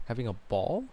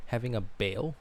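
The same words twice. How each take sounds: First: "ball" with an open aw vowel, not "bale"; "ball" said like Paul, not pail; corrected pronunciation. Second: "bale" said with an ay vowel instead of "ball"; "bale" rhymes with pail, not "ball"; mispronounced ball. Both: Shown as a demonstration. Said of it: "Ball, bale, bale, ball?".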